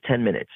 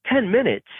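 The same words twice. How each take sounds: First: Said in the usual way. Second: Stunned echo of the director's answer; shocked disbelief. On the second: Retold or imitated. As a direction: repeat Ten minutes? high in alarmed disbelief. Shocked echo of short time.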